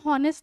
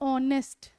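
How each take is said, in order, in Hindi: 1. शब्द की शुरुआत एच की आवाज़ से होती है। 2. शब्द की शुरुआत स्वर की आवाज़ से होती है। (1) "हम हॉनेस्ट नहीं बोलते" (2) "आवाज का किस चीज की आ रही है, ओ की"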